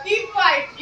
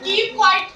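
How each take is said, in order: First: Firm order. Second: Firm, louder order; stern order. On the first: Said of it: "तो मैं आपको ऐसे बोल रही हूँ". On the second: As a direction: snap it out like a strict teacher. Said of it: "मैं क्या बोल रही हूँ आपको? चुप रहो". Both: Shown as a demonstration.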